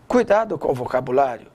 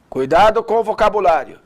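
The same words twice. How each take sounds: First: It is spoken softly, in a low voice. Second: It is spoken at a medium volume. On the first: "vai falar baixinho" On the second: "médio"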